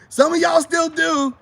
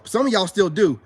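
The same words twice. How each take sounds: First: Loud, high and drawn-out accusation; insistent shout. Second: Said in the usual way. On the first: Real, not acted. Man calling out viewers who won't admit it, shouting. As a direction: call them out at the top of your voice.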